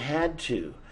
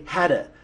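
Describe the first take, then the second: First: Both words are said fully and separately. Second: The words blend into one reduced word. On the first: "we're using had to" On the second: "we even say hadda"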